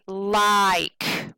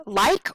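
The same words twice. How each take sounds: First: LIKE stretched long; drawn-out stress. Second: Said in the usual way. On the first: Shown as a demonstration. Teacher testing stress on students, LIKE held long. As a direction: drag out the vowel of "like". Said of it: "or do we say like". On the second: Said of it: "do we say like or".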